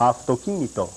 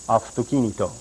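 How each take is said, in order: Both takes have the same delivery.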